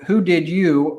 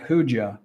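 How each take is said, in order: First: Each word is said fully and separately. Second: The words are contracted and reduced together. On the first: "So who did you always sounds like" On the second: "sounds like who'd ya"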